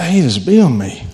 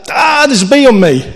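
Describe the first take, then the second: First: Relaxed, friendly greeting to the bee; calm delight. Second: High, loud panicked shriek, hammed up; mock panic. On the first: Retold or imitated. Preacher showing his new calm welcome to a bee, light and friendly. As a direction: say it like you're glad the bee came. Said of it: "But I was like". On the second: Preacher acting out his usual bee panic, high loud mock shriek. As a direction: squeal it like a bee just landed on you. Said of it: "And usually I'd be like".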